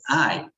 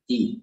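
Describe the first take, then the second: First: The vowel sounds like the English word 'eye'. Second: The vowel is a short 'ee'-like sound. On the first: "in English, you'll pronounce it as I" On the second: "In Sanskrit, you'll pronounce it as E"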